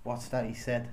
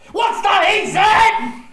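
First: It is said with less enthusiasm. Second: It is said with more enthusiasm.

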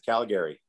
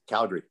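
First: The word is said with three syllables. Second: The word is said with two syllables. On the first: This is how outsiders from another province say it. The speaker calls it wrong. "everybody from Ontario says Calgary" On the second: This is how locals say it. The speaker calls it right. "Take the second A out"

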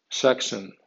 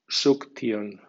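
First: It is read with English sounds and stress. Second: It is read with Spanish letter sounds. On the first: "en pronunciación inglesa" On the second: "como si fuera española"

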